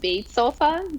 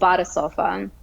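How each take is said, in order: First: The first word is one syllable, like 'bait'. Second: The first word has two syllables, like 'bah-da'. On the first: The speaker calls it wrong. "incorrectly as bait sofa, just phonetically" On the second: The speaker calls it right. "it is pronounced as Bada Sofa"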